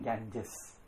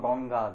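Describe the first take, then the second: First: The name ends with a jes sound. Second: The name ends with a long ga sound. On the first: This is how English speakers say the name. "イギリス人、" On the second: This is the original form of the name. "本当はガンガーです"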